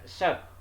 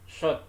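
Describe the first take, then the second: First: The lips are not pushed forward. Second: The lips are pushed forward and rounded. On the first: The speaker calls it wrong. "bukan shot" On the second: The speaker calls it right. "jadi mulutnya harus mencucu ke depan"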